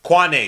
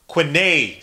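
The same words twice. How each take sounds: First: "Quane" with an open ah, kwah-NAY; corrected name. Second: "Quine" with a short i, kwih-NAY; mispronounced name. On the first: Streamer correcting a chatter's name, "Quane" said kwah-nay. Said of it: "excuse me". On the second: Streamer greeting a chatter, "Quine" misread as kwih-nay. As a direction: read "Quine" out as kwin-ay. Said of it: "Quane, excuse me". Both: Real, not acted.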